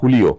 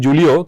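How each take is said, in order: First: The name begins with an H sound. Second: The name begins with a J sound. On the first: This is how the player's own country says the name. "কিন্তু তারা বলে হুলিও" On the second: This is how Bengali speakers say the name. "আমরা বলি যে জুলিও"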